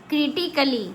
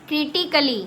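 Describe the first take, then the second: Both takes have the same delivery.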